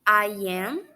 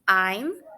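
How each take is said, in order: First: It is said as two separate full words. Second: It is said as one short contracted syllable. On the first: "juntando eles dois" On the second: "formas contraídas são as formas curtas"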